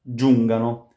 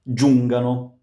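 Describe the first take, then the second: The two takes are said the same way.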